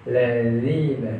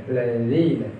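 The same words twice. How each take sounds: Both takes have the same delivery.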